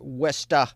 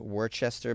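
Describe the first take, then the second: First: The word is said the local way. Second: The word is said just as it is spelled. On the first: "but we say" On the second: "It looks like you would pronounce it as"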